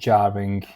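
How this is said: It is said in a British English accent. "anglický"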